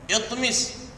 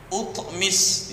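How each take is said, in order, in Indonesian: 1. Kata ini diawali dengan vokal i. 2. Kata ini diawali dengan vokal u. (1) "hamzah wasal yang dibaca kasrah" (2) "tidak boleh"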